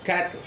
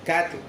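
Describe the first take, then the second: Both takes have the same delivery.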